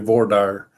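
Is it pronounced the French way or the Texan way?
Texan. It is pronounced the Texan way.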